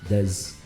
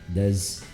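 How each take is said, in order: No difference in how they are said.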